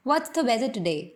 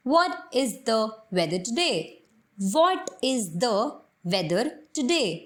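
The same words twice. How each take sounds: First: "What's the" run together quickly with a light "the". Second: Slow, every word separate: "What is the weather today?"; Indian English pronunciation. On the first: Teacher showing the native way, quick and linked. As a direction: blend "What's the weather today" the native way. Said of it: "as a native pronounce करूँ". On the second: Teacher showing the Indian way, slow and careful. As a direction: spell out "What is the" in full, Indian style. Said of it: "Indian pronunciation की help से बोलूँ". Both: Shown as a demonstration.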